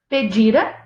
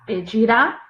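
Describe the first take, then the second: First: The stress is on the second-to-last syllable. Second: The stress is on the last syllable. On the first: The action happened in the past. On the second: The action will happen in the future.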